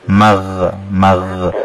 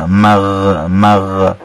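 The two takes are said the same way.

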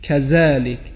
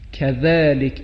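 First: The middle consonant is pronounced like z. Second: The middle consonant is a soft th-like sound. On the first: The speaker calls it wrong. "یعنی مثل زا تلفظ کنه، این درست نیست" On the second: The speaker calls it right. "این هم حرف ذال هست"

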